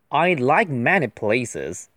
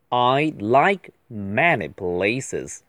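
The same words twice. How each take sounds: First: The sentence is read at a normal pace. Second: The sentence is read at a slow pace.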